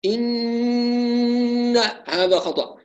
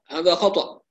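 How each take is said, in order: First: إن with the nun buzzed and dragged out very slowly; wrong over-nasalized nun. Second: Said in the usual way. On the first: Shown as a demonstration. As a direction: exaggerate the ghunna on إن. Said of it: "ننبه مرة أخرى على عدم التطنين".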